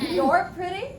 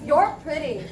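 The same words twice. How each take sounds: First: It is said as a question. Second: It is said as a statement. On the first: It asks the listener for confirmation. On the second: It tells the listener a fact.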